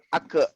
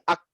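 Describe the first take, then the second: First: The final k bounces with an added vowel. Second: The final k stops cleanly without a bounce. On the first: The speaker calls it wrong. "bukan ake" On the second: The speaker calls it right. "jadi ak"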